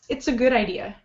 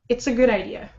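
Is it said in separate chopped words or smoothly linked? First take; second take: linked; linked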